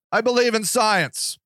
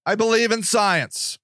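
Both takes have the same delivery.

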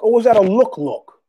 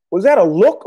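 First: "look look" said as a loaded, meaningful term; emphatic doubled word. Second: Said in the usual way. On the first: Retold or imitated. Man questioning a stranger's stare, doubled "look look" stressed.

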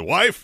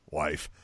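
First: Louder, higher "wife" with a rise; retold attention-grabbing call; urgent mock call. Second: Low, soft "wife"; retold offhand call, dropped low and quiet; low-key address. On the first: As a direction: call her sharply, pitched up, in mock urgency. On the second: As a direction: address her softly in a low voice. Retelling calling his wife, first try.

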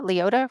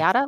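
First: "Leota" with an OH in the middle; trying a pronunciation. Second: "Liotta" with an AH in the middle; trying a pronunciation. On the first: Host testing the actor's name, lee-OH-ta. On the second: Host testing the actor's name, lee-AH-ta. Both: Shown as a demonstration. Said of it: "Is it Liotta or Leota?".

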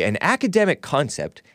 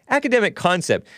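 First: Said in the usual way. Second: "Academic concept" repeated in a much higher, mocking tone; sarcastic echo. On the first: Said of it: "They make it sound so". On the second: Real, not acted. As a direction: throw the phrase back with scorn. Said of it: "They make it sound so vanilla".

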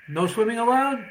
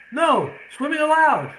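First: Said in the usual way. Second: "No, swimming allowed" with a pause after No and allowed high and loud; swimming allowed said as a gleeful, loud, high and slow reveal; grandfather's triumphant reread with "No," split off; punchline reread. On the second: Acted. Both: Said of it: "the grandfather says".

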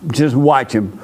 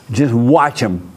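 No difference in how they are said.

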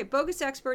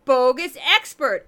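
First: Said in the usual way. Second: Put-on loud, drawn-out goofy Minnesota accent; slow, booming mock Minnesota accent. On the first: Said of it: "Bogus Expert is a section I do". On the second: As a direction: announce it big in a hammed-up Minnesota accent. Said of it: "that's where I do my goofy Minnesota accent".

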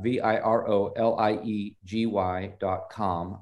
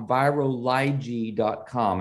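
First: "V I R O L I E G Y" said slowly, each letter separate; spelled out letter by letter. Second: Said in the usual way. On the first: Shown as a demonstration. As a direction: spell out "V I R O L I E G Y" one letter at a time. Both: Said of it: "and I'm going to spell that".

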